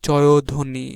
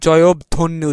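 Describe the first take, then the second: First: No b sound is pronounced in the middle. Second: A b sound is pronounced in the middle. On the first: The speaker calls it right. "আমরা উচ্চারণ করি জয়ধ্বনি" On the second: The speaker calls it wrong. "আমরা কিন্তু জয়ধ্বনি উচ্চারণ করি না"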